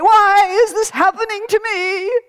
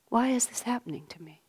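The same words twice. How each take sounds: First: The question sounds resentful and complaining. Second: The question sounds sincere and searching. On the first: The speaker is rebelling against what is happening. The speaker calls it wrong. "Which is how we tend to sometimes" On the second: The speaker sincerely wants to understand what is happening. The speaker calls it right. "same words, completely different"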